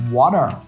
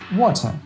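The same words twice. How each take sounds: First: It is said in an American accent. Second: It is said in a British accent. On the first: "American says water" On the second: "English man says water"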